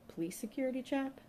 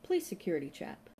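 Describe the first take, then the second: First: High-pitched disbelieving question; puzzled repeat as a question; incredulous echo. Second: Said in the usual way. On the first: A narrator's reading. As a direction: echo it back, baffled, pitch climbing. Inspector echoes her in disbelief.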